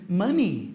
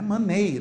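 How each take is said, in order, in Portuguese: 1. A vogal final é um i longo. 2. A vogal final não é um i longo.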